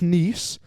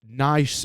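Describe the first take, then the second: First: The vowel sounds like the one in 'geese'. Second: The vowel sounds like the one in 'ice'. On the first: "like the place in France" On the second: "I think that's the correct pronunciation"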